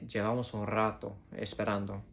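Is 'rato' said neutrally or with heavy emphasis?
emphasized. The word 'rato' is strongly emphasized. It has been much longer than a while.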